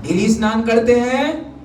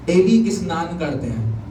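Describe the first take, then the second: First: "daily स्नान करते हैं" pitched higher, rising to the end; questioning. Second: Said in the usual way. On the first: Real, not acted. Preacher quizzes congregation on daily baths, "daily स्नान करते हैं" rising as a question.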